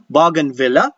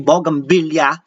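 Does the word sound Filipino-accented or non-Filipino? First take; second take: non-Filipino; Filipino. First: The word is said without a Filipino accent. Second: The word is said with a Filipino accent. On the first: The speaker calls it right. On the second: The speaker calls it wrong.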